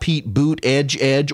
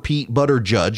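First: The surname sounds like 'boot edge'. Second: The surname sounds like 'butter judge'. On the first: "not Pete Boot Edge" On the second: "or Pete Butter Judge"

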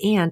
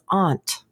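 First: The word is said in a plain, casual way. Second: The word is said in a formal, posh way. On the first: The speaker calls it wrong. "we're not pronouncing it correctly" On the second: The speaker calls it right. "You sounded so formal"

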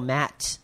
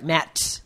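First: The final T is soft and unreleased. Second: The final T is sharply and crisply released.

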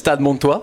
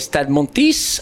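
First: The name is said with a French pronunciation. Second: The name is said with an English-like pronunciation. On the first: This is the real name of the club. The speaker calls it right. "this is Stade Montois" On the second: This is how the host says it. The speaker calls it wrong. "you say Stade Montis"

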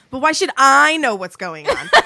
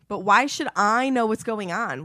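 First: It is read in a sarcastic tone. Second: It is read in a fairly plain tone.

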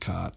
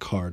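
First: The R is dropped, Boston style. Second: The R is pronounced after the vowel.

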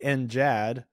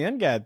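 First: The G is pronounced as a soft G. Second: The G is pronounced as a hard G.

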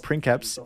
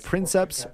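First: The word is said with a Latin pronunciation. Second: The word is said with an English pronunciation.

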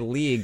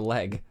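First: The vowel is a long 'ee' sound. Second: The vowel is a short 'e' sound. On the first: It mocks another person's odd pronunciation. The speaker calls it wrong. "you say league, which isn't even Canadian" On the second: It is the ordinary pronunciation. The speaker calls it right. "that's what you say for leg"

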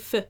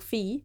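First: The vowel is cut short. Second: The vowel is held long. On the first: The speaker calls it right. "sometimes we shorten the fi" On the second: The speaker calls it wrong. "it's not a long vowel"

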